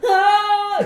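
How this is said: The scream is in a high falsetto voice. "make the scream falsetto"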